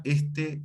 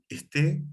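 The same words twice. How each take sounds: First: Este stressed on the first syllable, ES-te; unaccented este. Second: Esté stressed on the last syllable, es-TÉ; accent on final E. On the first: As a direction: say este with the weight on ES. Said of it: "cuando va sin acento". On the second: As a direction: say esté slowly, landing on TÉ. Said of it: "o en una E". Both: Shown as a demonstration.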